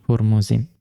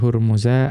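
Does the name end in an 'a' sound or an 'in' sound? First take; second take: in; a. First: The name ends in an 'in' syllable. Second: The name ends in a short 'a' vowel.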